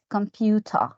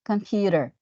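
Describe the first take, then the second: First: It is said in a British accent. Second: It is said in an American accent. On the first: "in the British accent, it's computer" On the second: "In the American English, computer"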